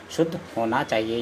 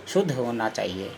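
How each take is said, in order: Both takes have the same delivery.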